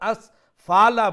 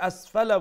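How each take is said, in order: First: The vowel after 'f' is drawn out long. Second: The vowel after 'f' is kept short. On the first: The speaker calls it wrong. "হরকতের পরিমাণটা কিন্তু এখানে লম্বা হয়ে যাচ্ছে" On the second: The speaker calls it right. "যখন আপনি শর্ট করে আসফালা বলছেন"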